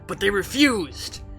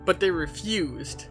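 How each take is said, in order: First: It is read in a put-on ghoul voice. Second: It is read in the speaker's normal voice.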